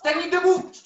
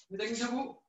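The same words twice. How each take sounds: First: Called out command. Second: Quiet repeat. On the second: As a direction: murmur "Technique debout" to yourself. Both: Real, not acted.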